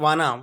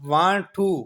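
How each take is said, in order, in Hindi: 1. दोनों शब्द मिलकर एक छोटा शब्द बन जाते हैं। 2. दोनों शब्द अलग-अलग और पूरे बोले जाते हैं।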